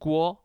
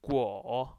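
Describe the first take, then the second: First: It is said with the first tone. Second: It is said with the third tone. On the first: It means a pot or boiler. "पहले टोन के साथ" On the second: It means fruit. "with the third tone"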